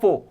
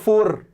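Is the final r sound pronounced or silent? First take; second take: silent; pronounced. First: The final r sound is silent. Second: The final r sound is pronounced. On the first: The speaker calls it right. "उसमें आर को थोड़ा silent रखना है" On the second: The speaker calls it wrong. "तुम बोलते हो फोर"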